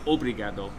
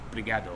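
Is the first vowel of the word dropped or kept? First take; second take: kept; dropped. First: The word starts with a full 'o' sound. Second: The first 'o' sound is left out. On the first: It sounds like a non-local speaker. The speaker calls it wrong. "you don't say obrigado" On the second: It sounds like a local speaker. The speaker calls it right. "They seem to drop the first O"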